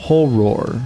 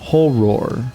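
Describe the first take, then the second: First: The vowel and R are kept apart, British style. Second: The same.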